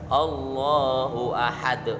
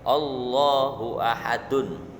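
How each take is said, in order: First: The last word ends on a bare consonant. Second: The last word ends with the full 'un' ending. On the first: The reader stops at this word. "tapi ketika waqaf dibaca Allahu ahad" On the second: This is the written full form. "Tulisannya ini Allahu ahadun tulisannya"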